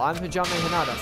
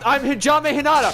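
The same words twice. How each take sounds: First: It is said in a soft voice. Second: It is said in a louder voice.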